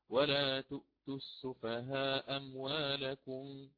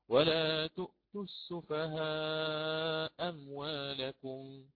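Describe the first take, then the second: First: The long vowel before the glottal stop is short. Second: The long vowel before the glottal stop is medium. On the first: "ويأتي بالقصر أولا" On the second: "لي فيه القصر أو التوسط"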